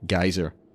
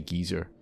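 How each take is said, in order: First: It is said in an American accent. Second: It is said in a British accent. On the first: "In American English, they say geyser" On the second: "in British English, we say geezer"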